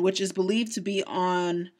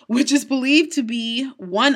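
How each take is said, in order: First: Said in the usual way. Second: "which is believed to be one" restarted slowly and more firmly; careful corrected retake. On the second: Real, not acted. Host rereading the script after a flub, careful retake of "which is believed to be one". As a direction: say "which is believed to be one" slower, higher-energy after a stumble. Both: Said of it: "blah, sorry".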